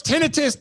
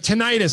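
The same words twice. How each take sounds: First: "tinnitus." said TIN-ih-tus, stress on the first syllable; "tinnitus." as TIN-uh-tis, said insistently; correct pronunciation. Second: "Tinnitus." said tin-EYE-tus, stress on the long second syllable; "Tinnitus." as tih-NYE-tis, high mock voice; wrong pronunciation. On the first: Retold or imitated. Correcting the crowd member, stressing TIN-uh-tis. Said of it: "That's pronounced". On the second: Someone in the crowd correcting him, tih-NYE-tis. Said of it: "you're saying it the wrong way".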